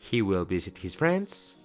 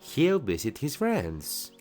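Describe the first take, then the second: First: He will is said as two full words. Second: He will is shortened into one syllable. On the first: The speaker calls it wrong. "en vez de decir" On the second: The speaker calls it right. "mejor di"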